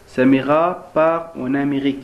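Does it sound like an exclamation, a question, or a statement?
statement. It is said as a plain statement. It gives information about the subject. "Ici on donne des informations sur le sujet"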